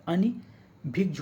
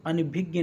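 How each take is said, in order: First: अनभिज्ञ slowly, "ani... bhigj", ending in j; correct pronunciation. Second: अनभिज्ञ as "a-ni-bhig-ye"; mispronounced word. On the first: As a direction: sound out अनभिज्ञ in parts with a j ending. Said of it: "क्या होता है?". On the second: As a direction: say अनभिज्ञ with an extra i and a gy ending. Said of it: "नहीं होता है". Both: Shown as a demonstration.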